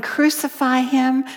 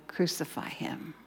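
First: Loud, raised crowd cry; mock crowd yell. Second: Hushed whisper of the mob cry. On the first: Preacher voices the crowd yelling at Jesus, loud and raised. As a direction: voice the mob yelling it. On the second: Retold or imitated. Preacher hushes the crowd's cry to a whisper. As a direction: whisper it, barely there.

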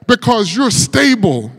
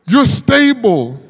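First: Said in the usual way. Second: "You're stable" said slowly and firmly, each word weighed; preacher repeating "You're stable" slow and deliberate; slow emphatic repeat. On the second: Acted. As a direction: land "You're stable" slowly as the point of the sermon.

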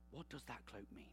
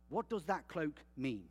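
First: "What does that cloak mean?" repeated much softer and lower; soft musing repeat. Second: Said in the usual way. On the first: Shown as a demonstration. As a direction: let the question sink in, quietly. Rhetorical question repeated quietly.

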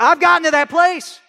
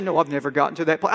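First: Louder, higher, admitting it straight; owning up with conviction after the mock pious line; honest admission. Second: Mock pious. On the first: Real, not acted. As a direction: confess it plainly and firmly. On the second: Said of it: "I wish I could be all spiritual and say".

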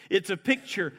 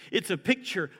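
Both takes have the same delivery.

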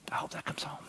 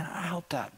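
First: Hushed, voiceless whisper. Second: Said in the usual way. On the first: Real, not acted. Pastor to congregation, hoping the story lands, whispered. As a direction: breathe it out like a secret hope. Preacher closing his message.

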